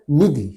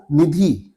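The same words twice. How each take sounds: First: निधि with a short final इ; correct short vowel. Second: निधि with a long final ई; common mispronunciation. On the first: Teacher answering what is correct, pronunciation demo. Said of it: "शब्द सही क्या होता है?". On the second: Teacher showing what people say, mispronunciation demo. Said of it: "लोग बोलते हुए आपने सुना होगा". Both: Shown as a demonstration.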